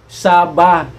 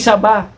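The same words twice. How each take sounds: First: The stress falls on the first syllable. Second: The stress falls on the last syllable. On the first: It names the territory. The speaker calls it right. "kundi Saba" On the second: It names the banana. The speaker calls it wrong. "hindi Saba"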